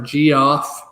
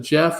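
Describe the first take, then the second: First: The name is said as two syllables, 'G-off'. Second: The name is said as one syllable, 'Jeff'. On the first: "or G off" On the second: "if he pronounces a Jeff as a Jeff"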